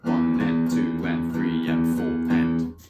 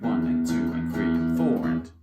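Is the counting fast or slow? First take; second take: slow; fast. First: The counting is at a slower tempo. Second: The counting is at a faster tempo.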